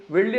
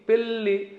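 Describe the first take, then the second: First: వెళ్ళి with v in place of the p in పెళ్ళి; వెళ్ళి, the careless v version; wrong v sound. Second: పెళ్ళి with a clear p at the start; పెళ్ళి said correctly with p; correct p sound. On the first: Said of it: "వెళ్ళి అనమంటే వెళ్ళి". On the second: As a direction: say పెళ్ళి with a crisp p. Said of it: "పెళ్ళి అనమంటే పెళ్ళి". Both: Shown as a demonstration.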